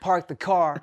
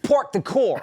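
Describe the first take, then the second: First: It is said in a plain, standard accent. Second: It is said in a mocked Cali accent.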